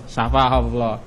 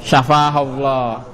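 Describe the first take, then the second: First: Said in the usual way. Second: Syafahullah drawn out slowly, syllable by syllable; slow demo. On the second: Shown as a demonstration. Teacher models the prayer to students, slow and deliberate. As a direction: stretch out Syafahullah for students to copy. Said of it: "bagaimana jadi?".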